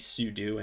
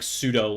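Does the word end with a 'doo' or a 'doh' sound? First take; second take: doo; doh. First: The word ends with a 'doo' sound. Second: The word ends with a 'doh' sound. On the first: The speaker calls it right. "It is actually supposed to be sudo, ... because it's supposed to be super user do" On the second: The speaker calls it wrong. "It's not like sudo, like you know pseudopod or pseudoscience"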